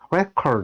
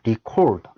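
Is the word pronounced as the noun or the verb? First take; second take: noun; verb. First: It is pronounced in its noun form. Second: It is pronounced in its verb form. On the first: It means a record or document. "record 하면 기록은 즉 명사죠" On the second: It means to record something. "동사의 어떤 발음이죠. record, 기록하다"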